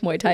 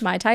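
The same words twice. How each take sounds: First: The first word sounds like 'moo-ay', two vowels. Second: The first word sounds like 'my', like the drink. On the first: It names the martial art. The speaker calls it right. "is a sport" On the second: It names a cocktail. The speaker calls it wrong. "is a drink"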